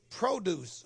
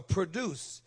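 First: "produce" stressed on the first syllable, PRO-duce; "produce" with a long O up front; noun pronunciation. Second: "produce" stressed on the second syllable, pro-DUCE; "produce" with a short first syllable, weight on DUCE; verb pronunciation. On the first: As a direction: say "produce" like the noun for fruit and vegetables. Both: Shown as a demonstration. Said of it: "means produce or produce".

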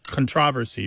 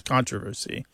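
First: Controversy as con-TROV-ersy; contrasted syllable stress. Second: Controversy as CON-tro-versy; contrasted syllable stress. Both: Shown as a demonstration. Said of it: "it's just a change thing".

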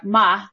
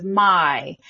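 First: "ma", vowel flattened to a long ah, louder; monophthong "my". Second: Said in the usual way. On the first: Shown as a demonstration. Linguist showing Southern vowels, "ma" with its glide dropped. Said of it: "I monophthongization". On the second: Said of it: "instead of".

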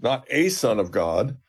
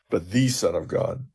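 First: "a" said as a full, stressed AY; slow, pointed emphasis on the article "a". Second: "the" said as a stressed THEE; firm emphasis on the article "the", falling to a close. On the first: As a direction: lean on "a" to set up a contrast. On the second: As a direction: lean on "the" as the correcting word. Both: Shown as a demonstration. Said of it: "his confession is perfect because he says".

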